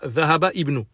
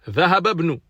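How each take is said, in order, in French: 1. Le i de ibn est prononcé séparément. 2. Le i de ibn est élidé et lié. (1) "on dit pas ذهب ibn" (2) "On fait la liaison"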